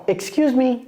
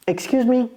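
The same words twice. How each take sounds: The two takes are said the same way.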